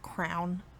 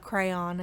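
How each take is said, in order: First: The word is said with one syllable. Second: The word is said with two syllables. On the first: "my sister and now her children say crown" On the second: "I say crayon"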